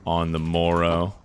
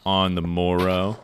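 First: Slow, old-timey mock delivery; archaic mock phrase. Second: Put-on slow, old-timey repeat; archaic mock phrase. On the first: Streamer trying out an old phrase, slow and mock-archaic. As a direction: savour it like an olde-worlde phrase. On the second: Streamer repeating the old phrase, slow and mock-archaic. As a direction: relish the old phrase once more. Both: Shown as a demonstration. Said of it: "No one says shit like that anymore".

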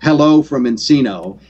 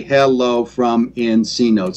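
First: Said in the usual way. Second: Slow, syllable-by-syllable "hello from Encino"; broken into syllables. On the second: Shown as a demonstration. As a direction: break "hello from Encino" into six separate slow beats. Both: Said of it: "if you break down the word".

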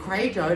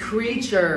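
First: "creature" garbled toward "cray-cher"; mock a student's muddled "creature" with the wrong first vowel; mimicked mispronunciation. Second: "Creature" said clearly as "KREE-cher"; careful teacher's "Creature", first syllable "kree"; correct pronunciation. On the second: Shown as a demonstration. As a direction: model "Creature" with a long ee in front. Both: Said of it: "đọc thì sao người ta hiểu".

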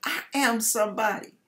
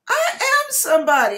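First: Said in the usual way. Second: I am somebody, loud and higher; proud declaration. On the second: Retold or imitated. Declaring her worth to God, loud and proud. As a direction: proclaim it with full force. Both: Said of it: "and I said".

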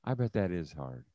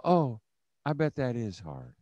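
First: Soft, low, gentle sympathy; sympathetic. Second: Soft, gentle oh of sympathy; just listen and soothe quietly; sympathetic. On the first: Demo for leaders of how to listen, soft and sympathetic. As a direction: say it softly as you nod. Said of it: "you nod your head and go". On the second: Leaders shown how to answer a struggling mom, soft sympathy. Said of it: "You just go". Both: Shown as a demonstration.

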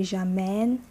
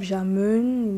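First: J'amène with an open eh, "zha-MEN"; open eh sound. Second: J'amène with a dull schwa, like "zha-muhn"; unchanged vowel sound. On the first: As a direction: say j'amène with eh in the second syllable. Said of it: "Eh, eh sound". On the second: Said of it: "He changes the sound. Instead of". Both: Shown as a demonstration.

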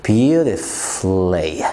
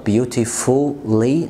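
First: Beautifully said very slowly as "beauti-flee"; beautifully stretched out, u silent; very slow correct pronunciation. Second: Beautifully said very slowly with the u sounded, "beauti-fully"; beautifully with every letter, slow; wrong pronunciation. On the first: (beautifully ببطء شديد صح) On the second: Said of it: "بص النطق الغلط". (beautifully غلط ببطء) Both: Shown as a demonstration.

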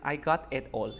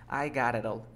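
First: "I got it all" with every t fully sounded; robotic, unlinked. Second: "I got it all" run together as "I gara-rall"; linked by the rules. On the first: Teacher shows how the student normally says it, like a robot. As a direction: say "I got it all" word by word, hard t's. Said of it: "que suenas como robot". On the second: Teacher shows it using the rules, linked and tapped. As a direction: turn both t's in "I got it all" into quick taps. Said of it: "pero usando las reglas". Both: Shown as a demonstration.

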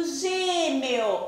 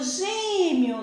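First: "gêmeo" with full E and O, gê-me-o; spelling pronunciation. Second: "gêmeo" ending in a gliding -miu; final U sound. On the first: Teacher shows pupils the unused form, "gêmeo" with clear E-O. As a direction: pronounce the written vowels of "gêmeo". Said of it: "Por que eu não digo gêmeo?". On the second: Teacher shows pupils the spoken form, "gêmeo" ending in U. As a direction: turn the O of "gêmeo" into a U. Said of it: "Eu digo gêmeo". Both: Shown as a demonstration.

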